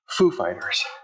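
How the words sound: The first word carries the stress. This is how everyone normally says the name. The speaker calls it right. "The emphasis is on foo"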